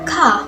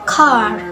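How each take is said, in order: First: It is said in an Australian accent. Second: It is said in an American accent. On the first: "In Australian accents" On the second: "In American accents"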